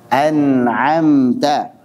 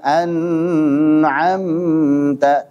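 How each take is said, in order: First: The word flows smoothly without any break. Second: The first syllable is held far too long. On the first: The speaker calls it right. "Ini baca dengan jelas" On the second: The speaker calls it wrong. "Jangan pula terlalu panjang"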